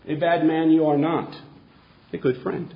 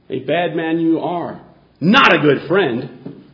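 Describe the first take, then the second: First: The pause comes after the word 'not'. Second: The pause comes before the word 'not'. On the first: The person is not bad and is a good friend. The speaker calls it right. "Let's put it right over here" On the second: The person is bad and is not a friend. The speaker calls it wrong. "Does anyone know where the comma belongs in this sentence?"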